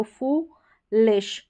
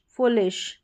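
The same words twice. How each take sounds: First: फूलिश slowly split as "fooo, lish"; long vowel demo. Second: फुलिश said as one word, "foolish"; "foo-lish" in फुलिश joined up. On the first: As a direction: draw out the "oo" in फूलिश. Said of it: "लंबा उच्चारण है". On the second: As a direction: run फुलिश together without a break. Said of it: "फुलिश हो गया". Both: Shown as a demonstration.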